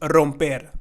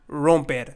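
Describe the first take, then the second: First: The first R is rolled. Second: The first R is plain, not rolled. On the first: The speaker calls it right. "we actually are going to roll it" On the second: The speaker calls it wrong. "and not romper"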